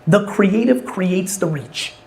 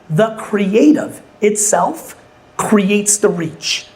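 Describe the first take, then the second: First: It is said at normal speed. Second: It is said slowly and deliberately.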